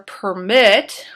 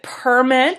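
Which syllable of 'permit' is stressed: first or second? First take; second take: second; first. First: The stress is on the second syllable. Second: The stress is on the first syllable. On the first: It means to allow. "so just a change in accent" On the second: It means a license. "such as in license"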